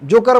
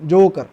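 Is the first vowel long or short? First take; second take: short; long. First: The first vowel is said short and clipped. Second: The first vowel is stretched out long. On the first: The speaker calls it wrong. "जोकर म्हणत नाही आपण" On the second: The speaker calls it right. "जसं आपण long ओ बघितलं होतं ना"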